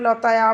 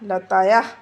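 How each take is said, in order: First: The word ends on a plain open vowel. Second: The word ends with a breathy h sound. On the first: The speaker calls it wrong. "তোমরা লতায়া বলে ছেড়ে দেবে না" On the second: The speaker calls it right. "এইভাবেই বলবে"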